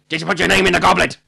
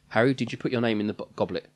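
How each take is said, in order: First: The question is asked aggressively. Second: The question is asked calmly.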